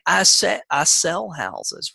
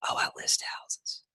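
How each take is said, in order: First: Slow and sure, "I sell houses" said firmly; confident, deliberate. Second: "Oh, I list houses" breathed out in a whisper; timid whisper. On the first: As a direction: state "I sell houses" slowly with full conviction. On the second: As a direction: shrink away as you say "Oh, I list houses". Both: Shown as a demonstration. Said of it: "versus how, saying".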